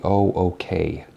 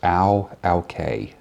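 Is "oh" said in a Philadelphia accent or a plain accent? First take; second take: plain; Philadelphia. First: The oh is said in a plain, neutral way. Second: The oh sounds like ow, Philadelphia style.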